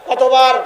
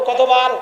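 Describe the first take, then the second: No difference in how they are said.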